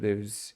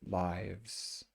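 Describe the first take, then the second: First: The vowel is a short i sound. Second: The vowel is a long i sound. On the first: It is the verb meaning to reside. "when it's the verb, it's the short tense" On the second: It is the plural of the noun life. "when it's the noun, it's the long"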